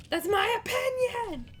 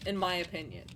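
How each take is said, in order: First: "my" drawn out high and loud, slower; emphatic "my". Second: Said in the usual way. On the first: Real, not acted. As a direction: lean on "my" in "That's my opinion!".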